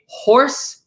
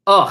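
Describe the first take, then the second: First: It starts with an audible H sound. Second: It starts directly with the vowel, no H. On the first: "they don't say horse" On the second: "they say"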